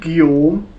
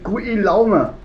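First: The name sounds short, like 'Jom'. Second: The name is read out letter by letter. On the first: This is how someone else claims it is said. "Nicht Guillaume" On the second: This is what the written name looks like. "Da steht Guillaume"

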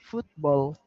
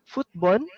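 First: The word ends with a clear L sound. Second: The word ends without a clear L sound. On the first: The speaker calls it right. "but it's football" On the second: The speaker calls it wrong. "you said here footbon"

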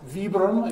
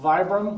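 First: The name is said with an Italian pronunciation. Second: The name is said with an English pronunciation.

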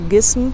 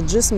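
First: The word begins with a hard g sound. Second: The word begins with a j sound. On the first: This is the Egyptian dialect form. "египтяне ... говорят гисм" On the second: This is the literary Arabic form. "вместо джисм"

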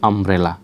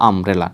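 The two takes are said the same way.

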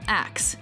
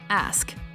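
First: The k sound comes before the s. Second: The s sound comes before the k. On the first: The speaker calls it wrong. "Common mispronunciation" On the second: The speaker calls it right. "Correct pronunciation"

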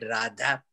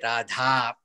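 First: The word is said in a shortened form. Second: The word is said in full, not shortened. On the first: This is the Telugu form. "when it's cut short, it says, it is said Radha" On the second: This is the Sanskrit form. "In Sanskrit, it should be Radha"

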